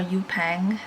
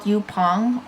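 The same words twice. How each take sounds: First: Yupang with "-pang" as second syllable; alternative pronunciation. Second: Yupong with "-pong" as second syllable; alternative pronunciation. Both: Shown as a demonstration. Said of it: "not really sure how you pronounce it".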